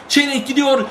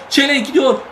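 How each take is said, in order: Both takes have the same delivery.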